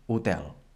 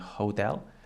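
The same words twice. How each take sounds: First: The word begins with no h sound. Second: The word begins with an audible h sound. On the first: "in Catalan it does not sound" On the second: "in English it has the H sound"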